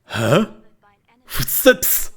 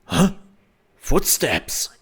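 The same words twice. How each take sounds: First: Much higher, breathy Footsteps with lisped S's; mock lisp on Footsteps; lisping guard. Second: A guard noticing footsteps, slightly higher; lightly voiced suspicious guard; puzzled guard. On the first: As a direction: play the guard with a heavy lisp. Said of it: "the dude is seeing your footsteps and goes". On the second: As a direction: ask it like a confused soldier. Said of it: "the guard is going like".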